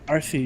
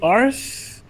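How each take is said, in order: First: The name is said as two syllables. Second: The name is said as one syllable. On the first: The speaker calls it right. "the secret is pronounce it like R C" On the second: The speaker calls it wrong. "people say Ars"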